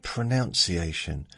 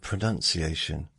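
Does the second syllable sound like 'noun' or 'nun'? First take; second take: noun; nun. First: The second syllable sounds like 'noun'. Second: The second syllable sounds like 'nun'. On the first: The noun follows the verb it comes from. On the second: This is the usual accepted form.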